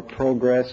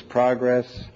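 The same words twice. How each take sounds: First: "progress" as pro-GRESS, long O; verb pronunciation. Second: "progress" as PRAH-gress, short open O; noun pronunciation. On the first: Lecturer contrasting homographs, "progress" as proh-GRESS. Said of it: "same thing for progress versus progress". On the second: Lecturer contrasting homographs, "progress" as PRAH-gress. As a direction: say "progress" like the noun, PROG-ress. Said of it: "progress versus progress". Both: Shown as a demonstration.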